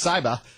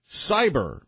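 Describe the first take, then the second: First: It is said in a Massachusetts accent. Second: It is said in a plain accent.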